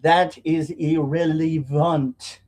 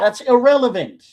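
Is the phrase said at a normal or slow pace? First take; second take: slow; normal. First: The phrase is said slowly and deliberately. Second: The phrase is said at a normal pace.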